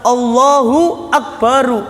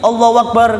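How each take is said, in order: First: The phrase is said slowly and fully. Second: The phrase is said fast and clipped. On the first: The speaker calls it right. "Harus jelas" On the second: The speaker calls it wrong. "Jangan di jangan diringkas, jangan dicepeti. ... enggak boleh"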